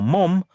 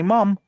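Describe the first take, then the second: First: "mum" with the short English uh vowel. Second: "mom" with an open American ah vowel, tried by an English speaker; borrowed American vowel on "mom"; attempted American "mom". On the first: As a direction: say "mum" the British way, as in "hum". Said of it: "I can say ma'am or mum". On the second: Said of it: "I can't say mom". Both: Shown as a demonstration.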